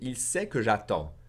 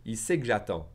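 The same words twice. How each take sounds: First: The word que is said fully. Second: Said faster, que is swallowed into a slight g.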